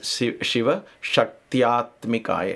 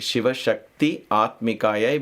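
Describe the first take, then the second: First: Shakti and Atmikaya merge into one word, Shaktyatmikaya. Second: Shakti and Atmikaya are said as separate words. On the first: "Shakti and A becomes Shaktya" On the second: "you can also say that. It's not wrong"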